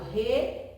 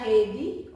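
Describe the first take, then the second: First: "rede" as re, pause, de; syllable by syllable. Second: Said in the usual way. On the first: Shown as a demonstration. Teacher letting pupils observe two pieces, "rede" spaced out as re-de. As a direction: separate both syllables of "rede" clearly. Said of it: "já posso observar aqui". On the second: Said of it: "Se eu separar rede".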